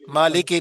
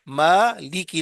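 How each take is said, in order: First: The word ends with an 'ay' vowel. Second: The word ends with an 'ee' vowel. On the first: The speaker calls it wrong. "मालिके नहीं है" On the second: The speaker calls it right. "लाम जेर ली काफ जेर की"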